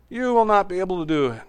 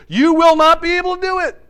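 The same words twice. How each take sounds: First: Said in the usual way. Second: Much higher and louder, a prophet's thundering verdict; booming warning. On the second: Acted. Joshua warning the people that they cannot serve the Lord, booming and high. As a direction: hurl it at them like a stern prophet.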